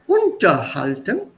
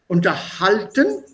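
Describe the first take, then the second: First: The stress falls on the first part. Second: The stress falls on the second half. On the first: To hold something underneath. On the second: To converse or talk with someone.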